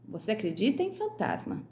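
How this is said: The voice falls at the end like a statement. The speaker asserts that the other person believes. "Então está afirmando, é uma afirmativa"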